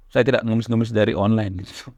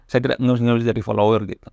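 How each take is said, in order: First: Said in the usual way. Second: Chuckling restatement; laughing repeat. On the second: Real, not acted. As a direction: say it again with a real laugh breaking through.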